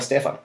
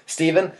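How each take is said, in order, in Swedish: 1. Namnet uttalas på svenskt sätt, med f. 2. Namnet uttalas på amerikanskt sätt, som Steven. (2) "när alla amerikaner kallar mig för Stefan"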